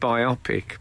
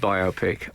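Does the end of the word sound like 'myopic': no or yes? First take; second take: yes; no. First: It ends like the word 'myopic'. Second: It ends in a clear separate 'pic' sound. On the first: The speaker calls it wrong. "biopic to me is too similar to myopic" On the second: The speaker calls it right. "I have always said biopic"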